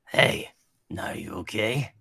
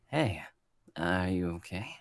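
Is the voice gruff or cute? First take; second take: gruff; cute. First: It is said in a gruff, Bakugo-like voice. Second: It is said in a cute, pretty boy voice.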